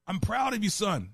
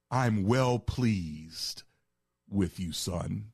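First: Lifted high, a proud fatherly declaration; God the Father voiced. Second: Slow, deliberate fatherly blessing; God the Father voiced. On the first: Preacher voicing God the Father praising his Son, raised high. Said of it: "So God the Father is saying". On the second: Preacher voicing the Father's actual words to Jesus, slow and solemn. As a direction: draw out well pleased like a solemn benediction. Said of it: "he used a different word".

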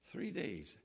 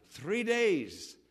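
First: Low, very soft echo; hushed repeat. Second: Said in the usual way. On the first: Shown as a demonstration. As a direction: drop it right down for weight. Repeats the hardship for effect.

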